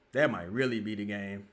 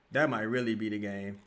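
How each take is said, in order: Both takes have the same delivery.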